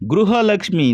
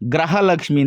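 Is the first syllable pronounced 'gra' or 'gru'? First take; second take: gru; gra. First: The first syllable has a 'ru' vowel sound. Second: The first syllable has an 'ra' vowel sound. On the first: The speaker calls it right. "ಗೃಹಲಕ್ಷ್ಮಿ ಅಂತ ಹೇಳೋದಿಲ್ಲ" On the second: The speaker calls it wrong. "ಗ್ರಹಲಕ್ಷ್ಮಿ ಅಂತ ಹೇಳ್ತಾರೆ"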